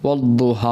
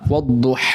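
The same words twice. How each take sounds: First: The h sound is plain and soft. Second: The h sound is sharp and raspy. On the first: The speaker calls it wrong. "ഹാന് പകരം ഹാ ഓതാറുണ്ട്" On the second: The speaker calls it right. "വദ്ദുഹ എന്നാണ്"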